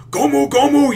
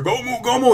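First: High, loud anime battle shout; shrill Gomu Gomu battle cry; Luffy battle cry. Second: Luffy battle cry. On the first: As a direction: wind up the punch, yelling it out. Luffy winding up his attack. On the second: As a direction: call the attack like a cartoon hero. Retelling Luffy's attack again. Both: Retold or imitated.

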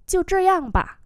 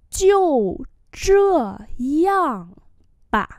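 First: Said in the usual way. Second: Slow, one syllable at a time with pauses; teacher's slow demo; slow model reading. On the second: Shown as a demonstration. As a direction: break "Jiu zhe yang ba" into long separate syllables. Same phrase broken up for learners.

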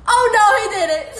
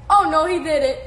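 First: High, loud and fast, half crying with laughter; laugh-crying shriek. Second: Said in the usual way. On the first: Real, not acted. Streamer cracking up at a fan's comment, laughing shriek. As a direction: squeal it while cracking up.

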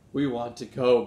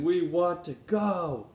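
First: Exclaiming. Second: Louder, slower and higher, a drawn-out plea; eager pleading. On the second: Benny pleads with Grandfather to go to the rally, eagerly. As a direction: beg like a child who can't wait. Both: Acted. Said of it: "Benny exclaimed".

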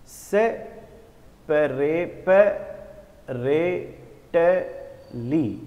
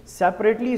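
First: "सेपरेटली" very slowly, one syllable at a time; teacher sounding out "सेपरेटली" piece by piece; broken into syllables. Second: Said in the usual way. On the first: Shown as a demonstration. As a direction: break "सेपरेटली" apart with a clear pause after each syllable. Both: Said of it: "इसको मैंने कितने बार तोड़ दिया".

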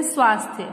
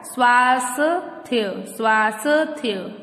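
First: "स्वास्थ्य" said together as "swaas-thya"; correct pronunciation. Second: "स्वास्थ्य" slowly split as "swaa-sa... thya"; wrong pronunciation. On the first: Teacher showing how we say it, correctly pronounced. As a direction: run s straight into th in "स्वास्थ्य". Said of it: "कैसे बोलते हैं?". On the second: Teacher showing how we don't say it, mispronounced. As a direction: drag "स्वास्थ्य" apart with an extra vowel after s. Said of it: "ऐसे तो नहीं बोलते हम". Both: Shown as a demonstration.

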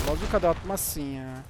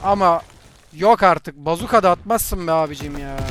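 First: Said in the usual way. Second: Loud indignant yell; outraged shout. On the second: Real, not acted. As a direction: protest loudly at the unfair kill. Outraged at bazooka kill.

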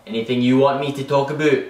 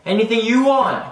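First: Said in the usual way. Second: YOU lifted high and loud; Anything YOU want, with you much higher; stress on YOU. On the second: Acted. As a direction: punch the word you, pointing at the viewer. Repeating offer, stressing the listener.

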